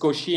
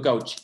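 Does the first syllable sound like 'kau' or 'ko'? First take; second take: ko; kau. First: The first syllable has a plain 'o' vowel. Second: The first syllable has an 'au' diphthong. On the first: The speaker calls it right. "lo estoy pronunciando como se pronuncia en francés" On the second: The speaker calls it wrong. "y no, no"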